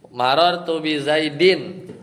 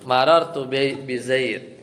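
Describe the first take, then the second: First: The last word ends with an -in sound. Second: The last word stops on a bare d. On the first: This is the full form in connected speech. "tanwin, tanwin ya" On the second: This is how it is read when pausing. "Jadilah marartu bi zaid"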